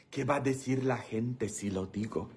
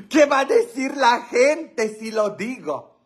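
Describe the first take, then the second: First: Low, very soft musing; hushed aside. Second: High-pitched mock dismay; mock scandalized. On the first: Pretend. Comedian wondering whether to tell the joke, hushed aside. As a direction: drop it down to a quiet aside. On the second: Comedian teasing viewers about a naughty joke, mock scandalized. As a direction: wail it high in playful scandal.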